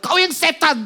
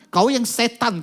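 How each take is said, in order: First: Much higher, raging shot back; raging retort. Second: Higher angry retort. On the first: Girl in a rage accusing the man holding her, furious shout. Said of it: "Anak ini ngamuk". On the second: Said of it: "kata anak ini". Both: Retold or imitated.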